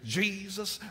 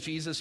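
First: The word is said in a Mississippi preacher accent. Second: The word is said in a plain, standard accent. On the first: "But in Mississippi, ... You say Jesus" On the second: "you don't say Jesus"

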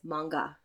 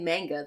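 First: The vowels are an open 'ah' sound. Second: The vowels are not an open 'ah' sound. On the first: The speaker calls it right. "It's manga, because the ah" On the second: The speaker calls it wrong. "when people say manga, they're dumb and wrong"

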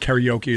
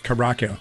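First: Karaoke is said with an American-style pronunciation. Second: Karaoke is said with a Japanese-style pronunciation. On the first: The speaker calls it wrong. "It's I think it's not karaoke" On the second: The speaker calls it right. "It's karaoke"

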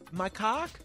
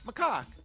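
First: The first syllable sounds like the word 'my'. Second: The first syllable is a short, weak 'ma'. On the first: The speaker calls it wrong. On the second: The speaker calls it right.

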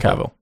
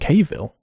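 First: The name rhymes with travel. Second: The name does not rhyme with travel. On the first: The speaker calls it right. "as if you were to say travel" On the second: The speaker calls it wrong. "they pronounce his name Cavill"

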